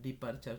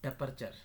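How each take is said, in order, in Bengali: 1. প্রথম সিলেবলে 'ee' স্বরধ্বনি আছে। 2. প্রথম সিলেবলে 'a' স্বরধ্বনি আছে। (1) "নট ডিপারচার" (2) "এভাবে উচ্চারণটা"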